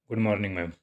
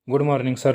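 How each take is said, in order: First: Said in the usual way. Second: "good morning sir." louder, with a lift on "sir"; eager greeting. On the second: Acted. Siya suddenly sees Lucifer in the cabin, eager and louder. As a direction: brighten up and punch "sir" like a flustered crush.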